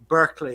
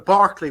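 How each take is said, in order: First: The name is said with the American pronunciation. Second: The name is said with its original pronunciation. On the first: "as you call it" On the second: "which is the original pronunciation"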